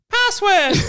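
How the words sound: It is said in a squeaky, high-pitched voice. The speaker calls it right. "in a squeaky, high-pitched voice"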